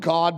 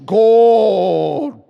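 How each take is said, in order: First: It is said in a plain everyday voice. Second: It is said in a drawn-out preacher voice.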